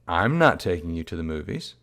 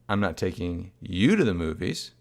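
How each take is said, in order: First: The stress falls on the word I'm. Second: The stress falls on the word you. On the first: Someone else may take the child. "in which case maybe somebody else is taking the child" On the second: The mother may go without the child. "in which case maybe the mom's going out without the child"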